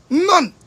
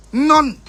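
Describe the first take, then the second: First: "None" louder and much higher; even higher none. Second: "None" louder and high, falling; emphatic none. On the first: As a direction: push "None" up higher still. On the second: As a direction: bark "None" with scorn. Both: Real, not acted.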